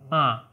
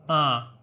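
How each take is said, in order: First: It sounds blocked, like a pinched nose. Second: The same.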